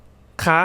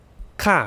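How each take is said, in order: First: คะ sweeping up high at the end; high rising tone. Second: ค่ะ starting high, then dropping; falling tone. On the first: Teacher showing the different tones, high rising tone on คะ. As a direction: lift คะ like a question. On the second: Teacher showing the different tones, falling tone on ค่ะ. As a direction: make ค่ะ fall firmly in pitch. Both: Shown as a demonstration. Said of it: "the different tones".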